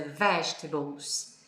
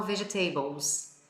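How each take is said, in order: First: "vegetables" slowly, stressed on VEG; "vegetables" said as VEJ-tuh-bles; stress on first syllable. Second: "vegetables" as learners say it, ve-ge-TAY-bols; imitating students' "vegetables" with a full, stressed TAY; misplaced stress. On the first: Shown as a demonstration. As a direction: hit the first syllable of "vegetables", swallow the rest. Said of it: "que é a sílaba forte". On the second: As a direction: lean on TAY in "vegetables", every syllable sounded. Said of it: "a maioria dos meus alunos falam".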